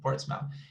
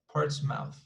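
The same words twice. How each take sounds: First: The R sound is dropped from the word. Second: The R sound is pronounced in the word.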